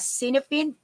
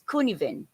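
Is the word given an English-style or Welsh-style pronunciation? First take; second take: English-style; Welsh-style. First: The word gets an English-style reading. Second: The word gets a Welsh-style pronunciation. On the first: The speaker calls it wrong. "you can read it as Cinefin" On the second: The speaker calls it right. "it is really pronounced as Cunivin"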